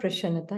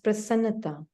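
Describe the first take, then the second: First: The consonant after 'pra' is pronounced 'sh'. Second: The consonant after 'pra' is pronounced 's'. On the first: The speaker calls it wrong. "It's not prashannata" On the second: The speaker calls it right. "it's prasannata"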